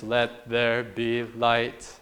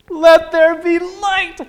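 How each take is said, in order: First: It is said in a flat, emotionless monotone. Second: It is said with lively, joyful excitement.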